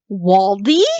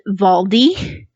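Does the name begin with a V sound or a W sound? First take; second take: W sound; V sound. First: The name begins with a W sound. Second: The name begins with a V sound. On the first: "it's Waldy with a W" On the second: "she pronounces it Valdi"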